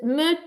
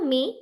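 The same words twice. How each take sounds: First: The vowel is a short neutral 'uh'. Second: The vowel sounds like English 'ee'. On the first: The speaker calls it right. "So it's me" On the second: The speaker calls it wrong. "It's never me"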